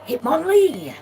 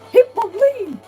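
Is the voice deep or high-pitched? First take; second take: deep; high-pitched. First: It is said in a deep voice. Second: It is said in a strained, high voice. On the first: "Hitmonlee had such a deep voice" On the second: "Like it just got kicked in the nuts or something"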